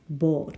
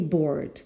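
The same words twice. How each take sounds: First: The word is said without an R sound. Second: The word is said with an R sound. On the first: This is the standard transcribed pronunciation. "The phonetics is board" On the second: This is the speaker's own pronunciation. "but I say board"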